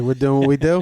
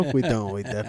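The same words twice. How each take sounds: First: "We're doing what we do?" asked with a rising end; questioning tune. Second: "We doing what we do." with a falling end, a bit lower and softer; settled statement. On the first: Asking the therapist if it's the usual session, rising tune. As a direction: lift the final "do?" as a question. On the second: Answering his own question to the therapist, falling tune. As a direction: drop the final "do." flat and sure. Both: Retold or imitated. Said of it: "be like".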